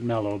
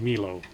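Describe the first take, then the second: First: The first vowel sounds like 'eh'. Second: The first vowel sounds like 'eye'. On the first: This is how the show says the name. "they pronounce it Mello" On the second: This is how the spelling suggests reading it. "it's spelled M E L O. That would be Milo"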